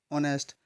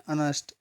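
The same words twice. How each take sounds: The two takes are said the same way.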